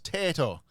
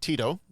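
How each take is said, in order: First: The name is said in an Irish accent. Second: The name is said in a plain accent.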